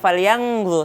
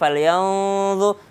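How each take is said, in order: First: The n is sounded as a nasal 'ng'. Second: The n moves almost into a 'dh' sound. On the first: The speaker calls it wrong. "bukan falyanzu" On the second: The speaker calls it right. "Nunnya udah hampir menyebut huruf dha"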